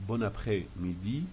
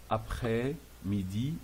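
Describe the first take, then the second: First: Said in the usual way. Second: "après-midi" drawn out slowly, in separate parts; slow pronunciation model. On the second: Shown as a demonstration. Teacher showing pronunciation, slow and broken up. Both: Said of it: "c'est pour la prononciation".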